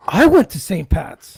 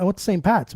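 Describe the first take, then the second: First: Slow, amazed echo of I went to Saint Pat's; imitating Sean's gasped disbelief; mock gasping surprise. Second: Said in the usual way. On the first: Mocking Sean's amazed echo of his school, slow.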